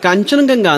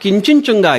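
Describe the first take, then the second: First: It is said with open 'a' vowels throughout. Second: It is said with 'i' and 'u' vowels instead. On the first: This is the original native name. "ನಮ್ಮ ಹಿರಿಯರು ... ಕಾಂಚನಗಂಗಾ ಅಂತ ಕರೆದ್ರು" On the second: This is how foreigners who found it hard said it. "ಅವ್ರ ಬಾಯಲದು ಕಿಂಚಿಂಚುಂಗ ಆಗಿದೆ"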